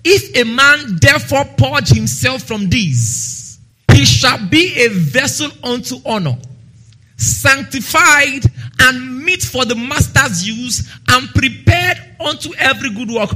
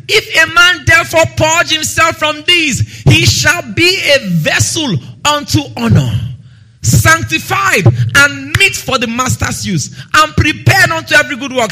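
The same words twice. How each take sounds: First: Measured, slow first reading of the verse; slow scripture reading. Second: Emphatic preaching. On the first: Preacher reads the verse to the church, measured. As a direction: read it slowly and steadily. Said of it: "first slow reading of the verse". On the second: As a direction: proclaim it with full force. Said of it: "second emphatic reading of the verse". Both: Acted.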